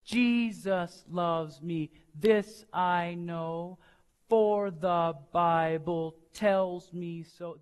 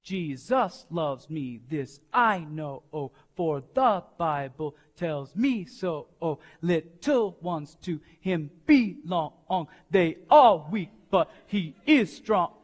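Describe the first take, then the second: First: Slow, soft singing with the weight on "Jesus" and "for"; steady march-like hymn pulse; accent on the first beat. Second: Syncopate "Jesus loves me", leaning on the second beat; offbeat, swinging feel, almost rapped; syncopated, accent on beat two. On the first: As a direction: sing it slowly and gently, landing each first beat on "Jesus". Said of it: "El acento está en el primero". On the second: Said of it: "movamos el acento al segundo tiempo". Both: Shown as a demonstration.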